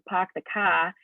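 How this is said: It is said in a Boston accent.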